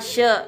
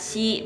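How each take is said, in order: First: The word begins with an sh sound. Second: The word begins with an s sound. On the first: The speaker calls it right. "harus dibaca she" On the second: The speaker calls it wrong. "bukan dibaca si begini ya"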